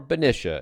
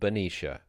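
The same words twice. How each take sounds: First: The name is said the alternative way. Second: The name is said the common way. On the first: This is how a longtime resident says it. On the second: This is the usual pronunciation.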